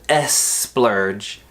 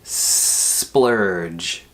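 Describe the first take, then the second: First: The opening S sound is short. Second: The opening S sound is held long. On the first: The speaker calls it wrong. "instead of S splurge" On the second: The speaker calls it right. "hold that S sound"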